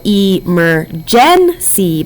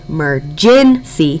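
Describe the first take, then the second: First: Each sound is pronounced carefully as it is spelled. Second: The word is pronounced naturally as in everyday speech. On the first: This is how the word is thought of for spelling. "We think to spell emergency" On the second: This is how the word is normally spoken. "but we say emergency"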